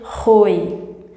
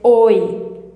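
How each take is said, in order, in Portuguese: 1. A palavra começa com um som de h aspirado. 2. A palavra começa com vogal, sem som de h. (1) "Não vai dizer roi" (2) "vocês vão dizer oi"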